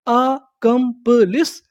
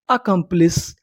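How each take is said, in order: First: accomplish split slowly as आ-कम-प-लिस, rising; syllable by syllable. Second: Said in the usual way. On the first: Shown as a demonstration. Teacher asking learners what we call it, slow and rising. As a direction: stretch accomplish out in four slow pieces. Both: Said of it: "उसे हम लोग क्या बोलते हैं".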